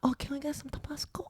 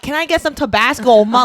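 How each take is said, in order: First: It is said quietly and shyly. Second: It is said loudly and proudly.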